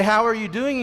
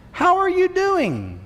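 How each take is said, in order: First: Said in the usual way. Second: Higher, slow, sing-song how are you; mock innocent greeting. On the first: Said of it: "So they say". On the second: A passerby casually asking how you are, mock innocent. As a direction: ask it like an overly sweet casual question. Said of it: "that oh so innocent question".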